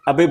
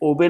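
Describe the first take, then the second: First: The first vowel sounds like 'uh'. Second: The first vowel sounds like 'oh'. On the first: The speaker calls it right. "ये आप अबे बोलेंगे इसको।" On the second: The speaker calls it wrong. "ओबे नहीं है।"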